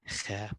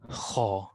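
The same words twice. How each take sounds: First: The sound is light and thin, not full. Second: The sound is heavy and fills the mouth. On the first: The speaker calls it wrong. "not kha" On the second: The speaker calls it right. "that means that the kha is magnified"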